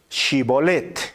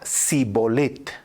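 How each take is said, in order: First: The word begins with a sh sound. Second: The word begins with an s sound. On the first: The speaker is not from the tribe of Ephraim. The speaker calls it right. "le pedían que pronunciara la palabra Shibolet" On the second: The speaker is from the tribe of Ephraim. The speaker calls it wrong. "Si era de Efraín, diría Sibolet"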